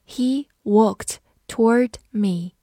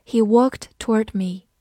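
First: Slow, each word set apart; slow read-through. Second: Said in the usual way. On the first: Shown as a demonstration. Teacher reviews the example sentence with students, slow read-through. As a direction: read it slowly and deliberately for learners. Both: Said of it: "好，慢读一遍".

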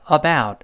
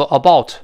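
First: "about" with the mouth opening wide and then closing; correct about. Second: "about" said the wrong way with a closed mouth. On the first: Teacher models "about" with the mouth opening and closing. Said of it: "嘴要张开再收回来". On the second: Teacher warns the class against the wrong "about". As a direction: show the mistake in "about". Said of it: "不要读about". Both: Shown as a demonstration.

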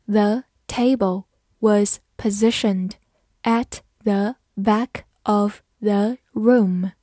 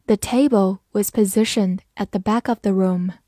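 First: Slow, careful read-aloud split in two phrases. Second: Said in the usual way. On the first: Shown as a demonstration. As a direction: read it slowly for students to follow. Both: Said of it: "慢慢来读".

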